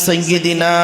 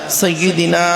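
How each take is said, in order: No difference in how they are said.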